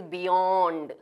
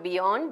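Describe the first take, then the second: First: Beyond with a long, slow second vowel; correct pronunciation. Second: Beyond with a short second vowel; wrong pronunciation. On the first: Teacher showing the long vowel, slowly stretched. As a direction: draw out "beyooond". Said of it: "there is a long vowel here". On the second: Teacher showing the mistake, mispronounced. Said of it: "It is not beyond". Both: Shown as a demonstration.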